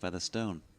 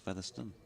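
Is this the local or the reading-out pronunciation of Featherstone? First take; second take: reading-out; local. First: It uses the standard reading-out pronunciation. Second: It uses the local pronunciation. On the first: "if they were reading the rugby league score Featherstone, they would say Featherstone" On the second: "But locally, it's Featherstone"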